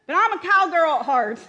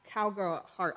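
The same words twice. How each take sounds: First: Much higher and louder, gleeful; excited exclamation. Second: Said in the usual way. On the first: Real, not acted. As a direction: burst out with it proudly.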